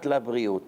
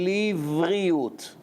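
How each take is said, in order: First: The word begins with the syllable 'la'. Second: The word begins with the syllable 'li'. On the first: The speaker calls it wrong. "not labriut" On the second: The speaker calls it right. "the correct way to say livriut"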